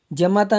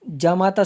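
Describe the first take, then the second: First: जमाता with a short first vowel, ja-MA-ta; wrong form. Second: जामाता with a long first aa, jaa-maa-taa; correct form. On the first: Teacher rejecting a misspelling, जमाता with short first vowel. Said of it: "जमाता नहीं होता है". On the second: Teacher giving the correct word, जामाता with long first vowel. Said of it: "जामाता शुद्ध शब्द है". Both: Shown as a demonstration.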